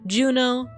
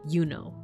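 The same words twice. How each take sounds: First: The name begins with a J sound. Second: The name begins with a Y sound. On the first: This is the modern English pronunciation. "if you speak American English" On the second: This is the likely ancient Roman pronunciation. "closer to Juno, like with a Y sound"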